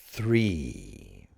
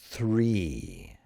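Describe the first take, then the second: No difference in how they are said.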